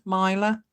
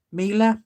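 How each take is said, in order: First: Mila said as MY-luh, rising and unsure; second guess at a name. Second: Mila said as MEE-luh, with a long ee; first try, Mila as MEE-luh; trying out a name. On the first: Greeting a viewer, unsure, Mila as MY-luh with a rise. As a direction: try Mila again as MY-luh, asking. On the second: Greeting a viewer, trying Mila as MEE-luh. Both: Shown as a demonstration. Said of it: "Not quite sure how you pronounce that one".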